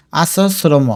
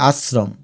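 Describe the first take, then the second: First: আশ্রম as a-so-sro-mo; without hasanta. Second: Said in the usual way. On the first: Shown as a demonstration. Teacher showing a missing hasanta, আশ্রম said a-so-sro-mo. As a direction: add open vowels inside and after আশ্রম. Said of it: "হসন্ত না দিলে উচ্চারণ হবে". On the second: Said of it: "হসন্ত দিলে হবে".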